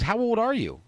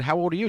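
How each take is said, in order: First: Higher-pitched, lightly voiced woman; a hint of a woman's voice; imitated woman asking. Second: Said in the usual way. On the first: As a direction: imitate her curious question, pitched up. Imitating the woman asking his age.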